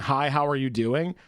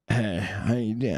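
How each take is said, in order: First: It is said in a plain, friendly tone. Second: It is said in a sleazy, creepy tone.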